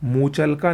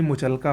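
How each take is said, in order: First: मुचलका with long first "moo"; wrong pronunciation. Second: मुचलका with short first "mu"; correct pronunciation. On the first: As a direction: stretch the first vowel of मुचलका. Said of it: "नहीं". (मुचलका को "मूचलका" बोलें) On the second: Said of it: "होता है". (मुचलका में छोटा "मु") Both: Shown as a demonstration.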